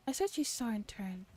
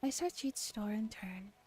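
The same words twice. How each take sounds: The two takes are said the same way.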